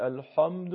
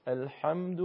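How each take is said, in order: First: الحمد with a thick, rounded, dark a after ح; bad example: swollen dark vowel in الحمد; wrong heavy ḥā. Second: الحمد with throaty ح and a thin, open a; right way: الحمد unrounded, squeezed ح; correct light ḥā. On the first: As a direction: mistakenly make الحمد full and heavy. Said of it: "این اشتباهه". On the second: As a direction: keep the a after ح in الحمد light. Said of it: "نمیشه الحمد". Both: Shown as a demonstration.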